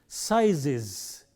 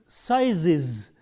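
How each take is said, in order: No difference in how they are said.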